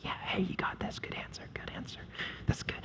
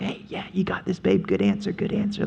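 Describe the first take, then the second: First: Whispered encouragement from the husband beside her; whispered husband cheering. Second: Soft, offhand husband egging his wife on; a lazy cheerleader of a husband; husband cheering her on. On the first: Husband whispering support to his wife during the temptation. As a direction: hiss it like he's hiding behind her. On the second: Husband murmuring encouragement to his wife, mock supportive. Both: Retold or imitated.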